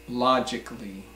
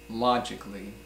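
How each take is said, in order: The two takes are said the same way.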